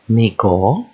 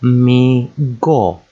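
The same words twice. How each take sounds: First: Mi go run together as one word; joined syllables. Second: Mi go as two long, separate beats; syllable by syllable. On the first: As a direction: join Mi and go without a gap. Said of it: "two syllable words". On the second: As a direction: sound out Mi, pause, go. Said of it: "practice joining two syllables together". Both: Shown as a demonstration.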